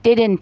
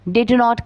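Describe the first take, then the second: First: The words are shortened into one contraction. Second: Every word is said in full.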